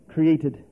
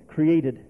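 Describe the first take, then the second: No difference in how they are said.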